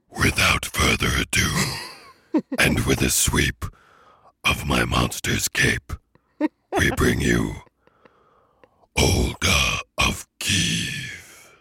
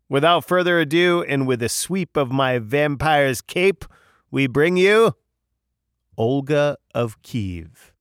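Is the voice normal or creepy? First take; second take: creepy; normal. First: It is said in a creepy voice. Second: It is said in a normal voice.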